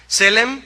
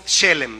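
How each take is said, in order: First: "Selem" said with a plain S, stress on the first E; "Selem" with a clean S, first syllable stressed; plain spelling sound. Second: "Shelem" said with an SH sound, stress on the first E. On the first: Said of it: "así como se oye". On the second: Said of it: "con una H después de la S". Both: Shown as a demonstration.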